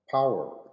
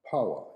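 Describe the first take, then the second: First: It is said in an American accent. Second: It is said in a British accent. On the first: "in American" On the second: "in British"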